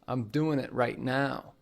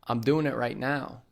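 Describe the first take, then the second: First: The g at the end of doing is dropped. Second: The same.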